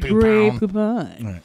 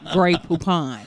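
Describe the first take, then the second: First: It is said in a put-on character voice. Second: It is said in an ordinary speaking voice. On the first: The speaker calls it right. "You have to do the voice" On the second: The speaker calls it wrong. "Nobody says Gray Poupon"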